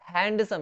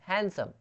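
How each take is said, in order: First: The d sound is clearly pronounced. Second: The d sound is left silent. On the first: The speaker calls it wrong. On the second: The speaker calls it right.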